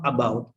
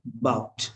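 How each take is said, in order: First: "about" with its A clearly said; full first syllable. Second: "bout" as one syllable; unstressed A dropped. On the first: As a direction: say both syllables, "a-BOUT". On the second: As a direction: say "about" as just "bout". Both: Shown as a demonstration. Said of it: "not about".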